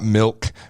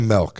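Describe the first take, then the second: First: The vowel sounds like i, as in milk. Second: The vowel sounds like e, as in melk. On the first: "not milk" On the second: "I say M E L K"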